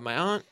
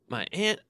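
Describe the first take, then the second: First: "aunt" said as "ahnt", open a as in "father". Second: "aunt" said as "ant", flat a as in "pant". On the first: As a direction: say "aunt" with a broad ah. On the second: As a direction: say "aunt" to rhyme with "can't". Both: Shown as a demonstration. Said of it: "however you wanna say it".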